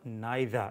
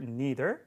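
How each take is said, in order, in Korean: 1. 영국식 억양이에요. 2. 미국식 억양이에요. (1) "영국이나 호주식으로" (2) "미국식으로"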